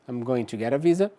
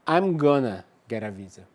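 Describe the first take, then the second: First: Going to is said as two full words. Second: Going to is reduced to one short word.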